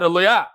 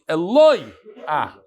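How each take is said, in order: First: The stress is on the last syllable. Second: The stress is on the second-to-last syllable. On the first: The speaker calls it wrong. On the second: The speaker calls it right. "this word is read Mila'el"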